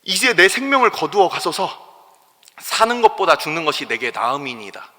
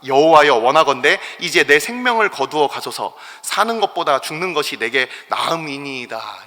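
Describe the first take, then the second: First: Despairing plea. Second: A loud cry of despair that opens the prayer; despairing plea. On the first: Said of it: "요나가 표현한 이 얘기를". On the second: Jonah begging God to take his life, loud opening cry. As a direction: call out to God, asking to die. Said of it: "이렇게 얘기를 하고 있어요". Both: Retold or imitated.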